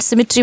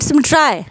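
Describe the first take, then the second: First: The final syllable ends with an 'ee' sound. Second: The final syllable ends with an 'eye' sound. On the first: This is how it is said today. "हमारी जो pronunciation है उसके base पे हम आई and सिमिट्री बोलते हैं" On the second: This is how it was said at the poem's time. "जो प्रोनाउंशिएट करते हैं उस टाइम का प्रोनाउंसिएशन"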